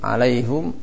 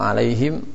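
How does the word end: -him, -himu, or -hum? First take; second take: -hum; -him. First: The word ends in -hum, with a u vowel. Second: The word ends in -him, with no final vowel. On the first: This is the reading of Hamzah and Ya'qub. "Qiraat siapa ini alaihum? ... Hamzah" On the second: This is the common reading. "Banyak qiraat di sana"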